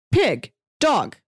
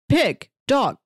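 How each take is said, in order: Both takes have the same delivery.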